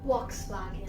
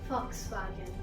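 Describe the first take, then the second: First: It begins with a V sound. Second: It begins with an F sound. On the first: "But in British accent, it is" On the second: "instead of the V, we have the F"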